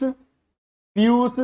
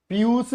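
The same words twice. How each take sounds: First: Slow dictation. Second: Said in the usual way. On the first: Shown as a demonstration. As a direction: stretch each syllable of Piyush out, very slow and clear. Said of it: "अमृत का पीयूष". (पीयूष को बहुत धीरे, खींचकर बोलना)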